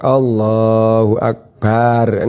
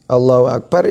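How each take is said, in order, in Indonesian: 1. Vokal setelah b pada Akbar dipanjangkan. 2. Vokal setelah b pada Akbar pendek. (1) "Matnya ba'i akbar" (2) "ya biasa, barnya pendek"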